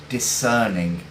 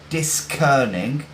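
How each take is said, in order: First: The C is silent, not pronounced at all. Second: The C is pronounced as a separate sound. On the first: The speaker calls it right. "as if the C isn't even there" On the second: The speaker calls it wrong. "we don't say discerning"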